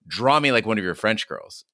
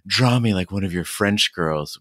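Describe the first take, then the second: First: It is said firmly and powerfully, like a command. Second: It is said in a soft, breathy, swooning voice. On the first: It is an order given with confidence. The speaker calls it right. "far more assertive. She says it with power and freedom. It's a command" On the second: The speaker is smitten with the listener. The speaker calls it wrong. "we do this like breathy voice"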